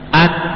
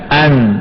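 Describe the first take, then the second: First: The nose is pinched, so the sound is blocked. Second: The sound flows freely through the nose. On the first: The speaker calls it wrong. "Tapi kalau dipencet, bisa nggak seperti itu?" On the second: The speaker calls it right. "hidungnya dibuka, lihat an, kan enak kan?"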